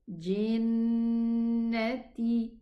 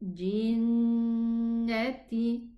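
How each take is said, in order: The two takes are said the same way.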